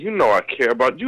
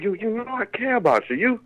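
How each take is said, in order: First: It is said in a plain, casual buddy tone. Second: It is said in a soft, mushy, sentimental tone. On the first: It is friendly talk between male friends. "But I said it without, like I would say it to my partner and the man" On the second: It is tender talk to a woman. "I had to put on Lifetime voice"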